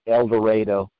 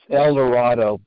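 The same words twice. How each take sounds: First: The name is said with the local pronunciation. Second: The name is said with its standard pronunciation. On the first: The speaker calls it wrong. "the locals Call it El Dorado" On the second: The speaker calls it right. "it's El Dorado"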